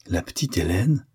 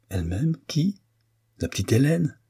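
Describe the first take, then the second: First: Mild scorn on Hélène, rising; a touch of disdain; disdainful. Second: High incredulous rise on Hélène; can't believe what he hears; disbelieving surprise; astonished. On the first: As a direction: dismiss the girl lightly. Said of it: "trahissant ainsi son dédain". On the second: Stunned by the news. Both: A narrator's reading.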